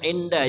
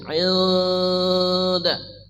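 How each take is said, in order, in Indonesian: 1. Bunyi n diucapkan dengan jelas. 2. Bunyi n tersembunyi dan sengau. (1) "jangan inda ya" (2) "Ikhfa artinya samar"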